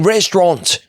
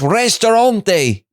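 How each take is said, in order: First: The word ends on the t, with no final vowel. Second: The word ends with a final e vowel sound. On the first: The speaker calls it wrong. "He keeps saying restaurant" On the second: The speaker calls it right. "It's restaurante"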